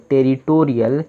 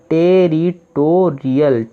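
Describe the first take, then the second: First: Said in the usual way. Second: territorial stretched out slowly syllable by syllable; teacher revealing the finished word; slow full word. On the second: Shown as a demonstration. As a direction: say the whole word slowly and clearly. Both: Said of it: "तो क्या बना?".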